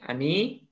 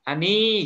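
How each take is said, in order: First: The name is called at normal loudness. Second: The name is called more loudly and forcefully. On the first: A first, ordinary call. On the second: The call is repeated to insist and reinforce it.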